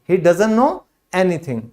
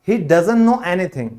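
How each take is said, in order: The two takes are said the same way.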